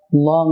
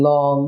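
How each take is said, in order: First: "লং" with a thick L instead of a thin one; thick, un-light L opening "লং"; wrong thick L. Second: "লং" with a completely thin L; clear, light L in "লং". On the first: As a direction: show a heavy L in "লং". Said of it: "লং নয়". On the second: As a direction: open "লং" on a light tongue-tip L. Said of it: "একদম পাতলা এল". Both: Shown as a demonstration.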